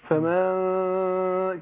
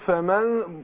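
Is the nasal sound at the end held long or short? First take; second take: long; short. First: The final nasal sound is held too long. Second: The final nasal sound is held for two counts. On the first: The speaker calls it wrong. "الغنة بالطول أقول إيه؟ فمن كده؟ طالت الغنة" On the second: The speaker calls it right. "أنا بقول مقدارها حركتين، فأقول فمن"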